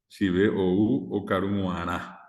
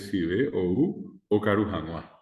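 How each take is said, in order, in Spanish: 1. La parte final empieza con un sonido w. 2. La parte final empieza con un sonido h. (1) "jamás yo puedo decir acá ... Guaná en vez de Janua. Nadie dice así" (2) "la forma eh, correcta de decir es"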